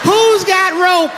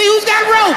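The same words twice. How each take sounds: First: Slow incredulous shout. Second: Incredulous shout. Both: Acted. Mocking rope claim.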